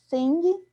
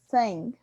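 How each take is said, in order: First: Portuguese-style i with an audible final g. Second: Short i with no audible final g. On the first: The speaker calls it wrong. "como talvez nós leríamos em português" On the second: The speaker calls it right. "Um som de i curto e no final sem ig"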